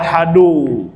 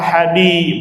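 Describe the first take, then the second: First: The word ends with a 'u' vowel. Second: The word ends with an 'i' vowel. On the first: The word begins a new sentence as its subject. "boleh dibaca ahadu, berarti dia mulai kalimat baru, mubtada" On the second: The word restates the preceding noun in apposition. "Boleh dibaca ahadi, badal dari amroini"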